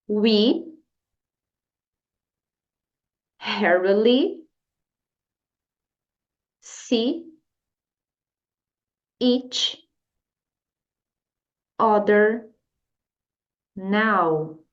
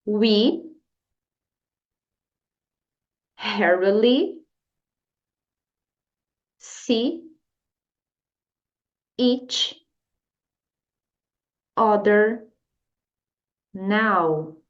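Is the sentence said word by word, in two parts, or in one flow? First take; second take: word by word; word by word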